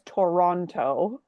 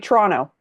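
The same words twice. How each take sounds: First: It is said the careful outsider way, with tor. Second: It is said the local Toronto way, with tra.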